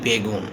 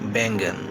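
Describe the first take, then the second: First: It is said with a Bengali pronunciation. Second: It is said with a Hindi pronunciation. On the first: "তো আমরা কি বলি?" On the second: "বেগুনকেও হিন্দিতে কি বলা হয়?"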